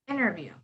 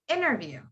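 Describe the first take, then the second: First: The T after the N is dropped entirely. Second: The T after the N is dropped entirely.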